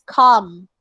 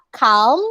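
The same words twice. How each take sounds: First: Calm said as "kahm"; calm modeled with the L dropped; silent L. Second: Calm said with the L sounded; calm mispronounced as spelt; wrong pronunciation demo. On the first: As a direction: say calm with no l sound. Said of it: "You don't say the letter L". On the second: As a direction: say calm as "kalm", l heard. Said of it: "it's not calm". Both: Shown as a demonstration.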